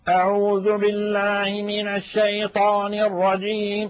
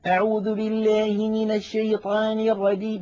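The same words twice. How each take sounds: First: The voice is pressed hard in the throat. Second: The vowels are slanted toward an e sound. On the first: The reciter is straining with forced effort. "تجد بأن المتكلم يضغط على أقصى حلقه" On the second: The reciter twists the jaw where it does not belong. "يجعل دائما فكه يعوج بالحروف التي لا ينبغي فيها الإمالة"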